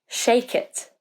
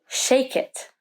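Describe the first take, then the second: The two takes are said the same way.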